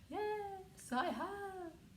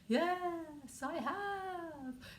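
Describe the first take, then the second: First: It is said in a ghostly voice. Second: The same.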